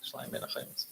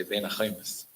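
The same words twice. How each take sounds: First: Hushed, as if telling a secret; whispered. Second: Said in the usual way. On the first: Retold or imitated. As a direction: whisper the sign's words, all breath. Repeats the phrase unvoiced.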